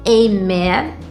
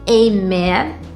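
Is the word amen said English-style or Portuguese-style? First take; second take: English-style; English-style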